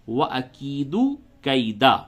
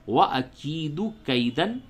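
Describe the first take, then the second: First: The last word ends in a long 'a'. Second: The last word ends in 'an'. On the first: The reciter stops here. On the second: The reciter does not stop here.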